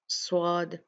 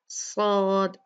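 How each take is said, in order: First: The s is said with the lips rounded. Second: The s is heavy, with the whole tongue raised. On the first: The speaker calls it wrong. "अपने होंठों को गोल कर लेते हैं। ये भी गलत अदायगी का तरीका है" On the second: The speaker calls it right. "सही अदायगी ... भारी पढ़ा जाता है"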